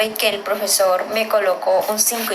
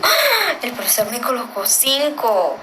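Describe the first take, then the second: First: Said in the usual way. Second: Surprised exclamation. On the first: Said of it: "yo digo". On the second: Shown as a demonstration. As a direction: act out delighted surprise at the grade. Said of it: "es como de sorpresa".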